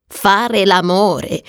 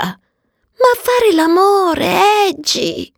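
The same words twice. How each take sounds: First: Slow, unimpressed echo; drawn-out sceptical question; scornful echo. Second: High, drawn-out romantic swoon; slow, high-pitched pleading to a friend; yearning plea. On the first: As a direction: repeat it slowly in a normal pitch, scoffing. Agnes echoing the phrase scornfully. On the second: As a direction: stretch it out high and longingly. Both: Acted.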